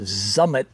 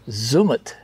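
First: The first vowel sounds like in summit. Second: The first vowel does not sound like summit.

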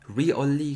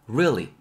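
First: The word is spread over three syllables. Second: The word is said in two syllables. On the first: The speaker calls it wrong. "굳이 이렇게 삼음절 발음하지 마시고요" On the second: The speaker calls it right. "이 음절"

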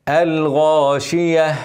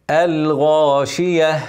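No difference in how they are said.

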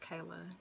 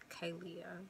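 First: No extra vowel sound comes before the final a. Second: An extra vowel sound comes before the final a. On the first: The speaker calls it right. "The I is silent. ... It's Kayla" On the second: The speaker calls it wrong. "It's not pronounced Kaylia"

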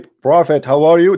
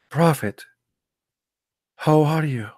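First: It is said loudly in a raised, forceful voice. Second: It is said softly in a lowered, subdued voice. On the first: It shows a lack of respect. The speaker calls it wrong. "That's not right. You have to lower your voice" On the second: It shows respect and humility. The speaker calls it right. "You have to speak like this"

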